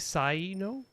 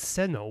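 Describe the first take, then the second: First: The name is said the English way. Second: The name is said the Japanese way. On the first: "It should be Saino?" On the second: "Japanese it's Seno"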